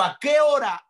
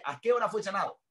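First: High, loud preacher's re-enactment; urgent acted question. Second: Raised pitch without the loudness; repeated acted question. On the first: Preacher voices the centurion asking the hour of healing, urgent. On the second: Preacher repeats the centurion's question for listeners, more contained. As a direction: ask it high but held back.

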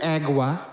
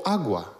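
First: "agua" deliberately mispronounced; slaughtered pronunciation. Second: Said in the usual way. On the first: Shown as a demonstration. Preacher mocking what listeners wait for, "agua" slaughtered. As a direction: butcher the word "agua" on purpose. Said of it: "for the slaughtered agua". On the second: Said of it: "we're not listening for agua".

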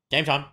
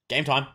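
No difference in how they are said.

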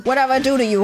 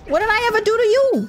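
First: Said in the usual way. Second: Indignant. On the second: Real, not acted. Player protesting at an attacking enemy, high indignant cry. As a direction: demand an answer, truly offended.

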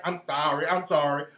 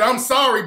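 First: Softer, lower mocking sorry; mock groveling apology. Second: Said in the usual way. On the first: Mocking the caller's repeated apologies, soft and groveling. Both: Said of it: "I'm sorry" bullshit is what's getting me".

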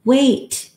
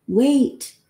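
First: Sharp high yell; sudden loud cry of wait. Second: High rising call of wait; a raised, pleading wait. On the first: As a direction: call out to stop him. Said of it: "Then somebody yells". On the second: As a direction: plead from across the roof. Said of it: "They're saying". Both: A narrator's reading.

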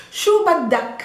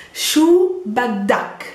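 First: Said in the usual way. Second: "Shu baddak" drawn out word by word; slow teaching demo. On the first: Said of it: "I'm talking to a male". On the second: Shown as a demonstration. Teacher models the new phrase for learners, slow and drawn out. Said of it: "it becomes baddak".

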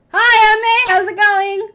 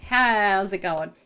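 First: Loud, much higher bright greeting; overly cheerful high hello; rehearsed greeting. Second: Said in the usual way. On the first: Pretend. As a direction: practise a peppy hello in the mirror. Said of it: "what are you gonna say?". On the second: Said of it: "We'll go with".

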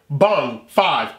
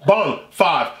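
Both takes have the same delivery.

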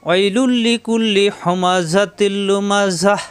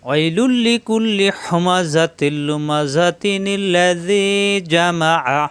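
First: Slow chanted recitation stopping on লুমাজাহ with a final h; recited with a stop. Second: Slow chant running লুমাজাতিনিল্লাযী together with a ni sound; recited joined. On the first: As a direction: pause fully at লুমাজাহ, no nun sound. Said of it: "ওয়াকফ করলে". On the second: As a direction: join the verses through the nun, no stop. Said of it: "মিলিয়ে পড়লে". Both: Shown as a demonstration.

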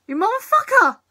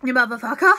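First: Higher-pitched indignant exclamation; high-pitched outburst. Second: Low, rising outburst. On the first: Vlogger cursing at a character, high-pitched outburst. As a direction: throw it out high. Repeats insult at episode, varied pitch. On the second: Vlogger cursing at a character, low rising outburst. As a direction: lower voice lifting at the end. Same insult repeated lower, rising. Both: Acted.

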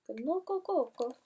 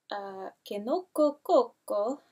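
First: Kinoko Koko with higher pitch, a lightly put-on Japanese-style accent; unsure put-on accent. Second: Said in the usual way. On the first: Shown as a demonstration. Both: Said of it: "Don't know what accent that was".

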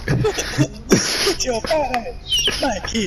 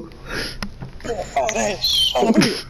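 First: Put-on breathy creepy old man wheeze; lightly voiced creepy old man; Herbert the Pervert voice. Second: Put-on slow airy creepy old man wheeze; lightly voiced creepy old man; Herbert the Pervert voice. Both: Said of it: "I could do Herbert the Pervert".

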